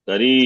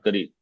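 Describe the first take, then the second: First: The final vowel is drawn out long. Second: The final vowel is cut short. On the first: The speaker calls it right. "you have to extend" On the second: The speaker calls it wrong. "not Kari"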